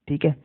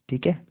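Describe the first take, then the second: No difference in how they are said.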